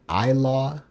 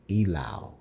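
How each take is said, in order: First: The word begins with an 'eye' vowel. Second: The word begins with a long 'ee' vowel. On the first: The speaker calls it wrong. "I just pronounced it wrong, but I would be saying Ilaw" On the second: The speaker calls it right. "Elau is pronounced as E, like you're saying letter E, as a long vowel, then Lao, like you're saying cow"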